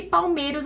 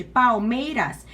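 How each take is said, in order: First: Said in the usual way. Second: "Palmeiras" slowly, syllable by syllable, pal-mei-ras; divided into syllables. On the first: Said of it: "palmeiras você divide". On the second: Shown as a demonstration. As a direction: break "Palmeiras" into three slow, separate syllables. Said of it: "E palmeiras você divide". ("Palmeiras" devagar, sílaba por sílaba, pal-mei-ras)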